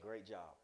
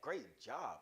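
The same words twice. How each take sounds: First: It is said flat and without enthusiasm. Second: It is said warmly and with enthusiasm. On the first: The praise is not really meant. The speaker calls it wrong. "And don't say it bland" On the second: The praise is sincerely meant. The speaker calls it right. "Really mean it"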